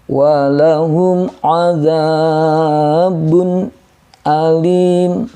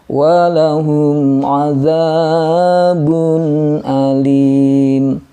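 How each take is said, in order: First: There is a break between adzabun and alim. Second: Adzabun flows smoothly into alim without a break. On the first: The speaker calls it wrong. "kalau putus" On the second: The speaker calls it right. "ya berjalan saja sewajarnya"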